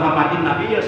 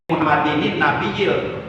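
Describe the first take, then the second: First: No extra syllable comes between the two words. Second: An extra nin syllable links the two words. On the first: The speaker calls it wrong. "bukan ... salah" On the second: The speaker calls it right. "mesti dikasih nun wiqayah"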